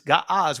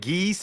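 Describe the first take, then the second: First: The vowels are open ah sounds. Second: The vowels are not open ah sounds. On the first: This is the name as it was said anciently. "but the ancient pronunciation is Ga'az" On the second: This is the name as it is said today. "they call it Ge'ez today"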